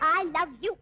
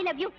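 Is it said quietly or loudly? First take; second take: loudly; quietly. First: It is shouted loudly. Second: It is said quietly, in a normal voice.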